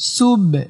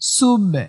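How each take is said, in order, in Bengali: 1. শেষের b একটি ছোট প্রতিধ্বনি দিয়ে ছাড়া হয়। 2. শেষের b একটি ছোট প্রতিধ্বনি দিয়ে ছাড়া হয়।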